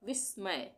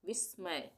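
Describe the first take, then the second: Both takes have the same delivery.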